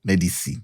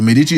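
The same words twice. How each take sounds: First: "Medici" said as meh-dee-see, like medicine; spelled-out pronunciation. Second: "Medici" said as meh-dee-chee; name pronunciation. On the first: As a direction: sound out "Medici" softly with an s in the last syllable. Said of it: "Like, it's typed Medici". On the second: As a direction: say "Medici" with a ch in the last syllable. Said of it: "pronounced like medicine". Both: Shown as a demonstration.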